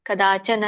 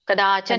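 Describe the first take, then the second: Both takes have the same delivery.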